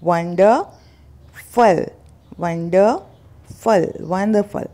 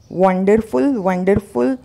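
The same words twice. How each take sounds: First: वंडरफुल slowly as WUN-duh-ful, weak last vowel; correct pronunciation. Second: वंडरफुल with sounded R and "full", rising; wrong pronunciation. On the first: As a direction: break वंडरफुल into slow parts, no R, falling. (वंडरफुल का सही उच्चारण, धीरे-धीरे) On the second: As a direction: show वंडरफुल as WUN-der-FULL. (वंडरफुल का गलत उच्चारण, र और फुल के साथ) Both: Shown as a demonstration. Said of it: "तो आपको करना है".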